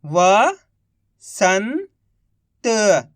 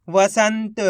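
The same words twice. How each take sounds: First: Each syllable drawn out very slowly; slow syllable-by-syllable reading. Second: Said in the usual way. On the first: Shown as a demonstration. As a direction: sound out सुरंग slowly as सु-रं-ग, one sound at a time. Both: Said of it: "एक अक्षर का उच्चारण करके".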